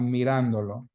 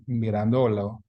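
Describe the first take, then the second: First: Mirándolo stressed as mi-RAN-do-lo; stress on accented A. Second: Mirandolo wrongly stressed as mi-ran-DO-lo; misplaced stress. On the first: Teacher models the pronoun added on, mirándolo stressed on RAN. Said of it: "write in that accent mark on the A". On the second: Teacher shows the word without its accent, mirandolo stressed on DO. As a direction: push the stress onto DO in mirandolo. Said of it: "otherwise it would be pronounced". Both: Shown as a demonstration.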